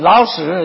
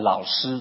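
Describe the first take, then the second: First: The word is said with a heavy regional accent. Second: The word is said in standard Mandarin. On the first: It sounds like an insulting word. The speaker calls it wrong. "他讲话有很重的口音，发音不准" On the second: It is the normal respectful word for teacher. The speaker calls it right. "他们都叫我们老师"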